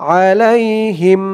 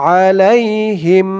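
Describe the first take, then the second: No difference in how they are said.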